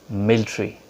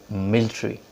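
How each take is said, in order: The two takes are said the same way.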